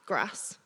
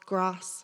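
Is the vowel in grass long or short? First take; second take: short; long. First: The vowel is short, as in northern English. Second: The vowel is long, as in southern English. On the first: Someone from the north would say it. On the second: Someone from the south would say it. "if you're in the south, you say"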